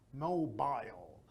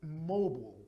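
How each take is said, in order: First: The word is said in a British accent. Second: The word is said in an American accent. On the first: "British English, they say mobile" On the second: "But American English"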